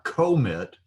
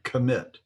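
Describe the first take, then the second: First: The first vowel is said fully. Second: The first vowel is barely said. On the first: The speaker calls it wrong. "not commit" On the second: The speaker calls it right. "but commit"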